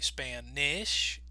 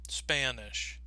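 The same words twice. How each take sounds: First: The second vowel is a short i. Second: The second vowel is a schwa. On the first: "some people might say Spanish, I, I, with the I sound" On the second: "Or some people might use the schwa"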